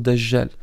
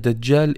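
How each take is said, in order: First: The j is a soft zh sound. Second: The j is a hard dj sound. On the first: The speaker calls it wrong. "et non Dajjal" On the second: The speaker calls it right. "on dit bien Dajjal"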